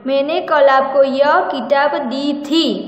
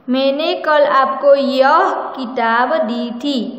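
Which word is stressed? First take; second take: दी थी; यह. First: The words दी थी are stressed. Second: The word यह is stressed.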